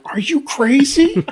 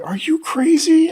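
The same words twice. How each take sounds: First: High, slow bewildered bear; bear's disbelief. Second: High, slow disbelief; incredulous. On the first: Bear staring at grandfather, high bewildered disbelief. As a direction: play the baffled bear. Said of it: "the bear looks at him like". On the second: Boy staring at grandfather, high-pitched disbelief. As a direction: stretch it out, can't believe it. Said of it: "I looked at him like". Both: Retold or imitated.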